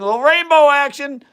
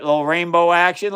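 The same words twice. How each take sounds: First: "Little rainbow action" thrown up much higher and louder, delighted; excited. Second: Said in the usual way. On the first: Real, not acted. Streamer marvels to viewers at the rainbow, excited. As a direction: cheer on the rainbow in the flask.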